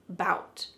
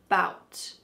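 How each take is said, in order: First: The word starts directly with the b sound. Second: The same.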